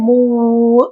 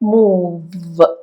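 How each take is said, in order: First: The consonant is a w sound with rounded lips. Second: The consonant is a v sound with teeth on lip. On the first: The speaker calls it wrong. "അതുപോലെ മൂവ് എന്നല്ല ഞാൻ പറഞ്ഞത്" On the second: The speaker calls it right. "മേലെയുള്ള പല്ല് താഴെ ചുണ്ടില് നമ്മൾ മുട്ടിക്കുകയാണ്"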